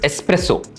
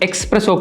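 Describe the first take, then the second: First: It begins with an 'es' sound. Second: It begins with an 'ex' sound. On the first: The speaker calls it right. "It's எஸ்பிரெஸோ" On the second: The speaker calls it wrong. "எக்ஸ்பிரெஸோ கிடையாது"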